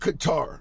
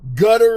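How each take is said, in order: First: It sounds like 'ka-tar', ending in 'tar'. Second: It sounds like the English word 'gutter'. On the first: "it's called both names" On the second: "if you want to pronounce it that way, depending on where in the world you live"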